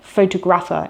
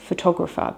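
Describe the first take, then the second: First: The stress falls on a nonstandard syllable. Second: The stress falls on the standard syllable. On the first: The speaker calls it wrong. "a lot of people end up saying things like photographer" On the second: The speaker calls it right. "instead of photographer"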